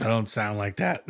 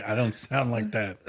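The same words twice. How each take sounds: First: Mock protest with rising end; quick indignant denial, rising; imitating friend. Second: Slow flat denial with falling end; imitating friend. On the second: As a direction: drag it out and let it drop. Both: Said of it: "He's gonna say".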